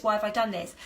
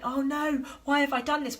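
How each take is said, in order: First: Said in the usual way. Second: Higher, whiny "why" hammed up; self-pitying wail. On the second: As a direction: play the victim, mock-despairing. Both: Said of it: "victim mode".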